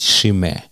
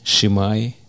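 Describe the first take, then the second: First: The name ends with an 'eh' sound. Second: The name ends with an 'eye' sound. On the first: The speaker calls it right. "а правильно его надо произносить" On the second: The speaker calls it wrong. "я так раньше его произносил"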